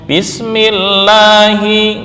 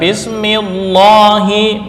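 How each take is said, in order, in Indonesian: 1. Huruf l pada Allah terdengar tipis dan ringan. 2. Huruf l pada Allah terdengar tebal dan penuh.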